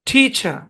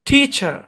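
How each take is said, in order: No difference in how they are said.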